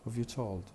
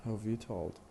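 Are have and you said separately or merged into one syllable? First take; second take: merged; merged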